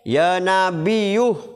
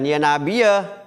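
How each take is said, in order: First: The word ends with a u vowel. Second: The word ends without a u vowel. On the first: The speaker calls it right. "itu yang paling benar ... rofanya dengan dhamma" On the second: The speaker calls it wrong.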